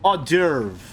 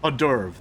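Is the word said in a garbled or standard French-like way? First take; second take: garbled; standard. First: The word is pronounced in a garbled, nonstandard way. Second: The word is pronounced in the standard French-like way. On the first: The speaker calls it wrong. "That's not how you pronounce that word" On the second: The speaker calls it right. "There we go"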